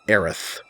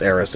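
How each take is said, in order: First: The name ends with a 'th' sound. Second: The name ends with an 's' sound. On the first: The speaker calls it wrong. "saying it with the th sounds like they named her with a lisp" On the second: The speaker calls it right. "for me, it's Eris"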